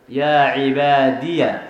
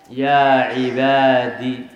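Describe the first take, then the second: First: The word ends in a ya syllable. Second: The word ends in a short i vowel. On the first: "إثبات الياء ... مفتوحة" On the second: "حذف الياء ... بالكسرة"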